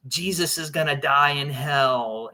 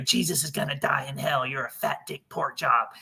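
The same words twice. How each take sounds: First: Said in the usual way. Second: Lightly voiced kid faking a demon; a hint of a boy putting on a scary voice; eleven-year-old's fake demon voice. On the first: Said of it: "he says stuff like". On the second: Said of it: "making his voice sound like this".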